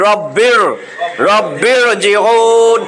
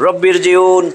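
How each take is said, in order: First: রব্বির জিউন very slow, r thick and heavy. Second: রব্বির জিউন with a thin, light r. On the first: Teacher showing the right heavy reading, very slow. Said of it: "এখন হবে". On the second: Teacher showing the wrong thin reading. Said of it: "পাতলা করেই পড়ে যাবো". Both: Shown as a demonstration.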